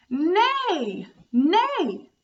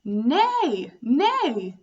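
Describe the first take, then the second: First: High whinnying neigh; playful horse call for kids. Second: Loud neigh, pitch nearer her own; milder horse call for kids. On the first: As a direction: neigh like a pony. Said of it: "This animal goes". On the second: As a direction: lighter neigh with less whinny. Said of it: "the animal is that goes". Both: Shown as a demonstration.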